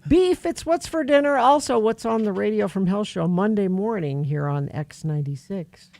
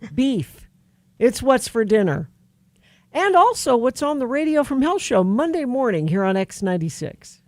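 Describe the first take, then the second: First: There is barely any pause after dinner. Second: There is a long pause after dinner.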